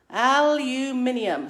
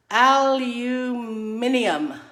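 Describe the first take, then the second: First: Aluminium at a quicker pace, still al-u-MIN-ium; aluminium repeated a bit faster, five syllables; British pronunciation again. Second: Aluminium said slowly and loudly as al-u-MIN-ium, five syllables; British pronunciation. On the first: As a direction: say aluminium briskly the English way. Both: Shown as a demonstration. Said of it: "one of the words that comes up as confusing is".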